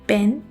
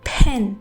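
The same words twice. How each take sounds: First: The first p has no puff of air. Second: The first p has a puff of air. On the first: The speaker calls it wrong. "पी की sound को उर्दू के पे की तरह" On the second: The speaker calls it right. "Puff of air के साथ बोलना है"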